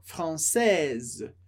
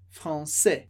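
First: "française" slow, ending on a clear z sound. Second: "français" ending on open e, S silent; silent final S. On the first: Teacher shows the feminine z sound, slow. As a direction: stretch "française" and voice the z at the end. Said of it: "pronuncia o S que vem antes". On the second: Teacher shows the masculine without final S. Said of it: "não pronuncia o S". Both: Shown as a demonstration.

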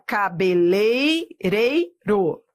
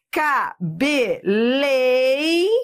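First: Cabeleireiro said slowly and carefully; corrected version. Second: Cabeleireiro drawn out slowly; mocking the wrong version. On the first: Teacher slowly says the corrected Cabeleireiro for students. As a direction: model the right form slowly. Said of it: "não olhe pra cá não". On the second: Teacher slowly reads the intern's misspelled Cabeleireiro. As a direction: show the intern's mistake. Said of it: "olha o que o estagiário fez". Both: Shown as a demonstration.

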